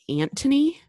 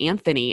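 First: The middle consonant is a plain t sound. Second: The middle consonant is a th sound. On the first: "she pronounced it Antony" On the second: "why isn't she saying Anthony?"

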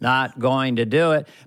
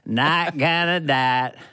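First: Each word is said fully and separately. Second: The words are reduced and slurred together. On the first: "say N-O-T, not going to do it" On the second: "By year four, it was like, not, N-A, ga, G-A, da, it"

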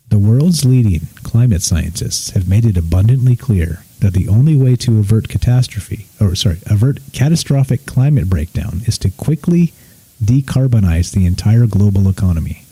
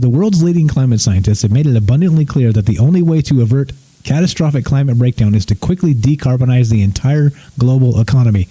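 First: It is read slowly and deliberately. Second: It is read at a normal pace.

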